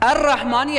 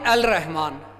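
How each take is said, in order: First: The L merges into a doubled r sound. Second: The L of the article is clearly pronounced. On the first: The speaker calls it right. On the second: The speaker calls it wrong.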